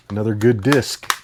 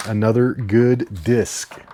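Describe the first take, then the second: First: Said in the usual way. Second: Slow drawn-out. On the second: Shown as a demonstration.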